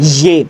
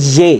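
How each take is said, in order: First: ইয়ে repeated low and settled as "ye"; firm correct letter name. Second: ইয়ে said as "ye" with a rising questioning tone; correct letter name. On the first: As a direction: confirm ইয়ে clearly as "ye", not "je". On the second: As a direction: say ইয়ে clearly as "ye", not "je". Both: Shown as a demonstration. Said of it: "এটা জে না".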